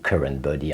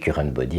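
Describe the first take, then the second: First: It is said with an English accent. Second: It is said with a French accent. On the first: "en anglais" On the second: "avec un accent français"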